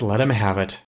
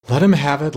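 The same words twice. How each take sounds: First: Sighed. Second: Raised and louder, pushing the words up; eager first call. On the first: Wind demon king giving in to the council, sighing. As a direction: let it fall back, a light sigh. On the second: Wind demon king urging the council, raised and louder. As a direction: call it out before the sigh settles in. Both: A narrator's reading. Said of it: "sighed the King of the Wind Demons".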